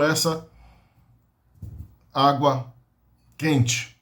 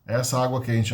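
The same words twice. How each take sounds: First: Word by word. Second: Said in the usual way. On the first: Shown as a demonstration.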